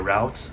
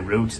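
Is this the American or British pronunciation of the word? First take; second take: American; British. First: It is said with an American pronunciation. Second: It is said with a British pronunciation. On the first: "they would say route" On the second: "We would say route"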